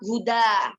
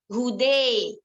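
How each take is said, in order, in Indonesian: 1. Vokal akhirnya bunyi 'a' terbuka. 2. Vokal akhirnya condong ke bunyi 'e'. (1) "yang asalnya huruf tersebut itu berharokat fathah" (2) "diimalahkan imalah mahdo atau imalah kubro, maka membacanya dengan hude"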